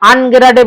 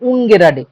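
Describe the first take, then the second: First: The first vowel sounds like 'ah'. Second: The first vowel sounds like 'oo'. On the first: The speaker calls it wrong. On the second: The speaker calls it right.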